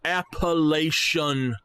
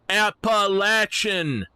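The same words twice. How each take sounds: First: The third syllable sounds like 'lay'. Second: The third syllable sounds like 'latch'. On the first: The speaker calls it wrong. "we do not have Appalachian Mountains" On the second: The speaker calls it right. "Like a, a gate latch. And not Lation"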